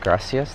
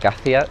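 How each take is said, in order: First: The middle consonant is an s sound. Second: The middle consonant is a th sound. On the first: "I'm gonna say like gracias" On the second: "they like use a T H"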